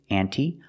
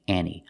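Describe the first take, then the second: First: The T sound is clearly pronounced. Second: The T sound is dropped entirely. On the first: "pronounce the T" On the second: "the T is silent and you hear Annie"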